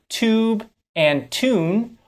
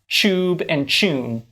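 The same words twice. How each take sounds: First: The words begin with a clear t sound. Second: The words begin with a ch sound. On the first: The speaker calls it right. "they're pronounced with their true t sounds" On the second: The speaker calls it wrong. "are not pronounced tube and tune"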